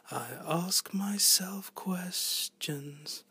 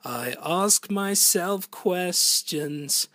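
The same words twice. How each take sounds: First: Soft, slow, breathy-whispered line; hushed soft singing voice; very soft vocal. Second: Fuller, slow, pushed-out take; strong full singing voice. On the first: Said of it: "between very soft vocal". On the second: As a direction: give it full voice, slowly. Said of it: "it's either that or". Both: Shown as a demonstration.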